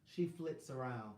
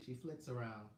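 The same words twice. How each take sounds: First: Slow, careful "flits", each sound laid out; teaching "flits" slowly; new word, said slowly. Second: Said in the usual way. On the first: Shown as a demonstration. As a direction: present "She flits around" like a fresh vocabulary word, unhurried. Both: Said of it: "I learned a new word today".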